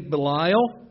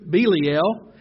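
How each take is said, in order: First: The name is said the common English way. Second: The name is said the Hebrew way. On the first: "some people say" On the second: "I think that's the correct pronunciation in the Hebrew"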